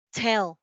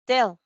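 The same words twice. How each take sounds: First: "tell" with a puff of air after the t; English "tell", breathy burst on the initial t; aspirated English T. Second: "tell" with a dry Spanish t, no puff of air; hard dental t in "tell", no breath after it; Spanish-style T. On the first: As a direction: blow air through the t of "tell". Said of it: "No decimos tell". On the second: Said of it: "Como decimos en español". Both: Shown as a demonstration.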